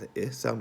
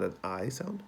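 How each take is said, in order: First: "I" said as short "ih", as in kit; clipped short-vowel "ih" for "I". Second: "I" said as long "eye"; full long-vowel "eye" for "I". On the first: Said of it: "not an I sound". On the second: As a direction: say "I" like its letter name. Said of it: "the long I sound". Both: Shown as a demonstration.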